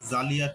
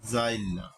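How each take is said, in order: First: The i sound comes after the l sound. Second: The i sound comes before the l sound. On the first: "জালিয়া থেকে" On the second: "পরের ই-কার আগে উচ্চারিত হওয়াকে বলে অপনিহিতি"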